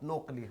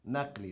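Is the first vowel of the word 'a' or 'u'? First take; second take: u; a. First: The first vowel sounds like 'u'. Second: The first vowel sounds like 'a'. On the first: The speaker calls it wrong. "not nuqli" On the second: The speaker calls it right. "Naqli, not nuqli"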